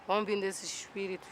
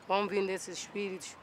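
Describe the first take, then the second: No difference in how they are said.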